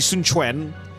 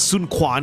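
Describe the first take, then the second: First: The second name starts with a ch sound. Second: The second name starts with a kw sound. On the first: The speaker calls it right. "the letter Q in Mandarin is actually pronounced as C H" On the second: The speaker calls it wrong. "it's not Sun Quan"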